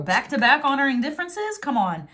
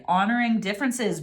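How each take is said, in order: First: Higher, rising in disbelief; incredulous. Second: Said in the usual way. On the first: Real, not acted. Tarot reader amazed by a repeated card message, incredulous. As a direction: question it as an amazing coincidence.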